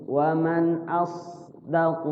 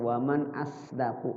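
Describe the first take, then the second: First: The s sound in asdaqu is thick and heavy. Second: The s sound in asdaqu is thin and light. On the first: The speaker calls it right. "shotnya itu tebal tuh" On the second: The speaker calls it wrong. "kayak huruf sin aja baca"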